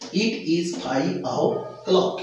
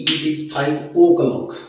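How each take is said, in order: First: The o of o'clock sounds like 'au'. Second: The o of o'clock sounds like 'oh'. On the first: The speaker calls it right. "इसका उच्चारण होता है आओ" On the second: The speaker calls it wrong. "बहुत से लोग कहते हैं कि ... बट ये ओ नहीं होता"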